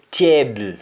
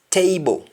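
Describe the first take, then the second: First: "table" with the ending as a short bo sound; Jamaican pronunciation. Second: Said in the usual way. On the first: Shown as a demonstration. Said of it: "Jamaican, we say". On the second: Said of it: "English, we say".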